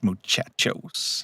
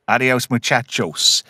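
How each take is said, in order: First: "muchachos" breathed out slow and soft; whispered muchachos. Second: Said in the usual way. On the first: Shown as a demonstration. Host repeats the catchphrase to cohosts, whispered. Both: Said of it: "talking about ... adios, muchachos".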